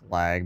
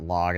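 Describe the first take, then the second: First: The vowel sounds like the 'a' in 'lag'. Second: The vowel sounds like the 'o' in 'log'. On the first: The speaker calls it right. "it's lag" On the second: The speaker calls it wrong. "It's not log"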